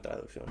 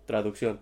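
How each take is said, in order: First: Traducción repeated much softer to herself; quiet repeat. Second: Said in the usual way. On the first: Shown as a demonstration. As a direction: mutter traducción again under the breath, near silent. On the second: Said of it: "translación".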